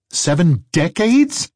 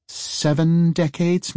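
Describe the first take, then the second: First: Louder, rising disbelieving question; incredulous. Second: Said in the usual way. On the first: Acted. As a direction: echo it in disbelief. Eli repeats in disbelief.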